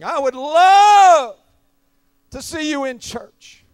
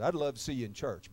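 First: It is said in a forceful, dramatic way. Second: It is said in a calm, conversational way. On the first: It is dramatized for the sermon. "for the dynamics of preaching" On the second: This is how it was said in the real conversation. "I didn't say it like that. I said"

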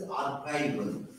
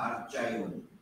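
First: The word begins with a K sound. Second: The word begins with a CH sound. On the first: The speaker calls it right. "The word is archival" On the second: The speaker calls it wrong. "not archival"

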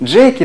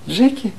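First: The name is called out plainly, without sadness. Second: The name is said with a light, sad tone. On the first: An ordinary call to a pet. The speaker calls it wrong. "Она не просто говорит" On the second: The caller already senses the pet is gone. The speaker calls it right. "радость привычная, да, с другой стороны, это уже какая-то очень опечаленная новость"

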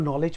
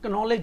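First: The word starts directly with an N sound. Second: The word starts with a K sound. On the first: The speaker calls it right. "इसको नॉलेज पढ़ेंगे" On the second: The speaker calls it wrong. "इसको हम नॉलेज नहीं पढ़ेंगे"

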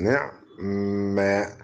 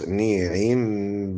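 First: The first vowel is 'i'; the 'ain' is silent. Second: The first vowel is 'i', then a full 'i'. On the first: "والاسكان" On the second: "والباقي كحفص"

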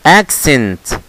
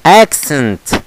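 The two takes are said the same way.

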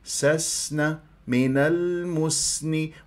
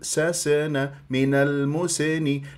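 First: The silent s flows with breath and whistle. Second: The silent s stops abruptly with a bounce. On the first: The speaker calls it right. "تنطيها آه هذه الصفات. سسن والصفير طبعا" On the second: The speaker calls it wrong. "ممكن أنه أقلقلها"

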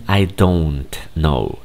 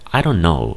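First: Each word is said fully and separately. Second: The words are run together and reduced. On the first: This is not how native speakers say it. "No dicen I don't know" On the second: This is how native speakers actually say it. "en realidad se escucha I don't know"

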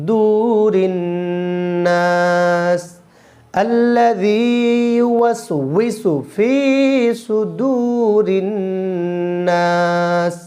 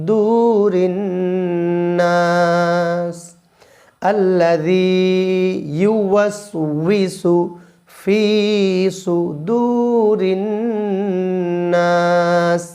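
No difference in how they are said.

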